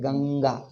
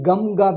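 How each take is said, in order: First: The nasal before g is an ng sound. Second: The nasal before g is an m sound. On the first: The speaker calls it right. "the nasal changes to according to the corresponding ga" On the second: The speaker calls it wrong. "Ganga we don't say"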